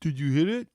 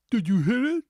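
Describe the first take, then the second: First: Louder, mock-tense movie line; lightly voiced scared teen asking if they hit someone; mocking movie dialogue. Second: Louder, higher hammed-up demand; mocking movie dialogue. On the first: Mocking the trailer's cringe line, lightly acted. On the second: Repeating the trailer's cringe line, louder and mocking. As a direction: push the question, hammed-up and loud. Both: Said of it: "Cringe-worthy dialogue".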